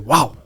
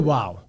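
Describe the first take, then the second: First: The word is said with strong emphasis. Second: The word is said plainly, without emphasis. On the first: The catchphrase reaction to good food. The speaker calls it right. "We say wow. ... we put emphasis on that" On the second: An ordinary everyday reaction. The speaker calls it wrong. "We don't say wow"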